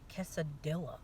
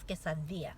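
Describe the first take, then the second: First: The double L is said like an English L. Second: The double L is said the Spanish way. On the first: The speaker calls it wrong. "it's not quesadilla" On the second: The speaker calls it right. "No, it's quesadilla"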